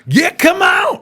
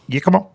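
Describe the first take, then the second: First: The phrase is said slowly and drawn out. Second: The phrase is said quickly and briefly. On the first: The speaker calls it wrong. "That is not a" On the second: The speaker calls it right. "It was a quickie"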